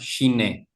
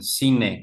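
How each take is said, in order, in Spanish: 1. El nombre empieza con un sonido ch. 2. El nombre empieza con un sonido s. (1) "creo que he escuchado que lo pronuncian" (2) "lo voy a pronunciar incorrectamente el nombre"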